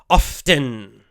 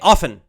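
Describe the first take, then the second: First: The T sound is clearly pronounced. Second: The T sound is left out. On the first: The speaker is enunciating very carefully. "will say that T sound" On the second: It is the faster, easier everyday way. "they'll drop the T sound"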